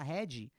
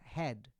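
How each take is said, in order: First: An extra vowel sound follows the final consonant. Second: The word ends sharply on the final consonant. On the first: The speaker calls it wrong. "A tendência que a gente vai falar head, que que vira inebriante" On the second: The speaker calls it right. "é bem seco"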